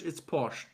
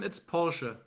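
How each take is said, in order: First: It is said with an English pronunciation. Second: It is said with a German pronunciation. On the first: "but in I think in English" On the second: "In German"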